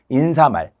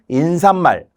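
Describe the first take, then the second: First: It is said plainly as in-sa-mal. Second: An extra n sound is added before mal. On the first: The speaker calls it right. "발음 한번 해보실래요?" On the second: The speaker calls it wrong. "틀리게 해보실래요?"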